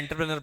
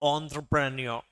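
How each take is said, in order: First: The word begins with an 'en' sound. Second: The word begins with an 'on' sound. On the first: "ऐसी इच्छा होती है कि मैं एंटरप्रेनर पढ़ लूँ" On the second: "अब सबके प्रोनाउंसिएशन अलग है यहाँ पे।"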